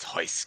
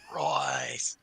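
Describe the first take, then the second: First: The name begins with an H sound. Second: The name begins with an R sound. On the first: It follows the Portuguese pronunciation. "Brazilian names where an R is pronounced like a H" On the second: It defiantly keeps the American pronunciation. "I will be like a thump my chest American"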